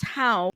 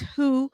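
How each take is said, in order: First: The name rhymes with 'cow'. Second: The name rhymes with 'too'. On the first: The speaker calls it wrong. "I don't think it's How" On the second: The speaker calls it right. "I think it's Who"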